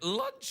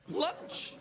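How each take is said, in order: First: The word is said at a high pitch. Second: The word is said at a normal pitch. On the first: The speaker calls it wrong. "all high" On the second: The speaker calls it right. "I said that again"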